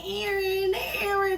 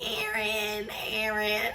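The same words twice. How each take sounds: First: Calling the name higher, imitating; lightly voiced name being called; mock calling out. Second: A retold moan of the name, a touch softer; half-hearted moaned name; mock moaning. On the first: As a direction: call the name up high like over a phone. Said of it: "calling my name". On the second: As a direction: moan the name lightly, imitating. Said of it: "you was moaning".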